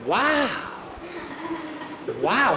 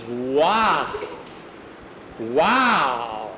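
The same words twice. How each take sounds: First: Put-on high-pitched child's wow; little boy's echoed wow. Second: Long, drawn-out wow at usual pitch; awed wow. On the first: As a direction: copy the amazement in a small high voice. Small boy echoes Jackie's wow. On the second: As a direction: breathe out slow admiration. Jackie admires the new collar. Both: A narrator's reading.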